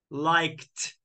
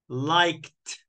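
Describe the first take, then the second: Both takes have the same delivery.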